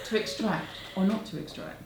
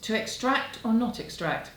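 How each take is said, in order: First: It is read in a grand, theatrical dramatic voice. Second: It is read in a plain, ordinary speaking voice.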